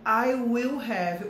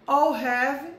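First: Each word is said fully and separately. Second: The first two words merge into one syllable.

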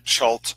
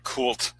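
First: The name begins with a ch sound. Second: The name begins with a k sound. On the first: "pronounced variously, either Chult" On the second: "I prefer the concept of the Chthonian or Cthulian pronunciation of Kult"

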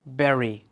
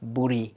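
First: The first vowel sounds like 'eh', as in berry. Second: The first vowel sounds like 'oo', as in boo. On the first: The speaker calls it right. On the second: The speaker calls it wrong. "not buri"

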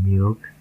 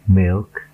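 First: The vowel is a long, tense ee sound. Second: The vowel is short and lax, near e. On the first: The speaker calls it wrong. "Perhatikan saya tidak membacanya milk" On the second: The speaker calls it right. "Huruf I yang dibacanya E itu seperti contoh-contoh yang berikut"

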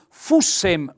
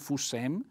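First: The stress is on the first syllable. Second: The stress is on the second syllable. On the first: The speaker calls it right. "un bel accento tonico sulla U" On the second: The speaker calls it wrong. "non fussem"

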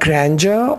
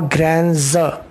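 First: The middle consonant sounds like 'j'. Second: The middle consonant sounds like 'z'.

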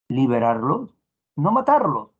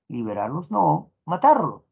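First: The pause falls before the word 'no'. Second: The pause falls after the word 'no'. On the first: They should be freed and not killed. "el ejemplo 1" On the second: They should not be freed but killed. "en el ejemplo 2"

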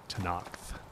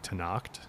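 First: The name is said with a 'th' sound. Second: The name is said without a 'th' sound. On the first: "others say Tanacht with a T H" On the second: "some of the voice actors say Tanacht"

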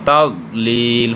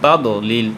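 First: The d sound is heavy with no bounce. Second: The d sound is released with an echoing bounce. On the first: The speaker calls it right. "কলকলা নাই যেহেতু, এই জন্য তাদলিল হবে, একটু মোটা হবে" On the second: The speaker calls it wrong. "এখানে অনেকে বলে তাদলিল, তাদও কেন হবে ভাই, তাদও হবে না"

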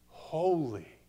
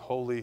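First: It is said slowly with deep, heartfelt feeling. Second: It is said flatly, like a rote repetition. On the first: The word is experienced with full revelation. The speaker calls it right. "almost like tasting it, smelling it, feeling it" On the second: The word is repeated mechanically. The speaker calls it wrong. "it's not going to be that we're just going"

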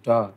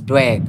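First: The word is said as plain 'dog'. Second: The word is said with a 'w' glide, 'dwag'. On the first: The speaker calls it wrong. "we're not saying dog" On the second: The speaker calls it right. "It's dwag, my name"

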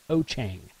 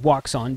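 First: The name is said roughly as 'o-chang'. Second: The name is said as its English spelling suggests. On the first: "ask how to pronounce it in Mandarin Chinese, it's pronounced O-Chang" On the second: "I pronounce it Wouxun because that's the way it's spelled"

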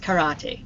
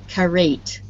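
First: The final E is pronounced as a vowel. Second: The final E is silent. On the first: The speaker calls it right. "It's karate. Doesn't follow English rules" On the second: The speaker calls it wrong. "If I pronounce this using English rules"

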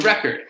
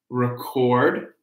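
First: The stress falls on the first syllable. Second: The stress falls on the second syllable. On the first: It is a noun: a vinyl disc that plays music. "That's a record" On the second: It is a verb: to capture sound. "So that is the verb"

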